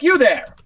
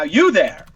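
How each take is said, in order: First: Higher, louder mock-commanding call; superior hail. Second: Mock-commanding call to a passerby; superior hail. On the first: Customer hailing a waiter walking by, mock-superior. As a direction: summon the waiter with mock authority. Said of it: "a waiter will walk by, I'll be like". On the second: Shown as a demonstration. Older man summoning someone walking by, mock-imperious. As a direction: hail a stranger from above, a touch pompous. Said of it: "I've been using for a decade now".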